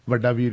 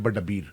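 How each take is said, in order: First: Both words begin with a v sound. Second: Both words begin with a b sound.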